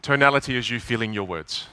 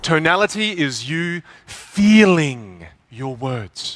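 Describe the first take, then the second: First: It is said flatly, without feeling. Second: It is said with feeling and expression.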